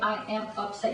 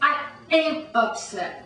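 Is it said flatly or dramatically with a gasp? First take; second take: flatly; dramatically. First: It is said flatly without any gasp. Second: It is said dramatically with a sharp gasp.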